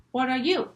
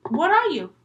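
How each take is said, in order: First: Said in the usual way. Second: High, loud demand; acted exasperated girl, pitched up; demanding girl's question. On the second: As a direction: ask it high and loud, wanting an answer. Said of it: "And then she goes".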